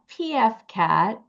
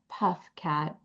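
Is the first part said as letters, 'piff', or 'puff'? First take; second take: letters; puff. First: The first part is spelled out as letters. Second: The first part is said as one word, 'puff'. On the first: "Not P F Cat" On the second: "not Puff Cat"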